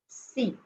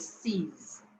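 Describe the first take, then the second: First: The word ends without any final consonant. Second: The word ends with a buzzing z sound. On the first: The next word begins with a consonant. "I only say C" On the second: The next word begins with a vowel. "followed by another word which begins with a vowel"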